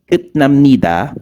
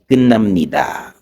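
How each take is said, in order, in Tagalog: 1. Nagtatapos ang unang pantig sa tunog na t. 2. Nagtatapos ang unang pantig sa tunog na n. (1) "di ba T sound yan sa baba" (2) "yung pagkakabasa is kun"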